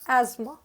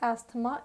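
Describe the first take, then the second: First: No 'th' sound is heard in the middle. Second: A 'th' sound is heard in the middle. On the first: The speaker calls it right. "यहाँ टी और एच silent रहता है" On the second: The speaker calls it wrong. "एस्थमा is wrong pronunciation"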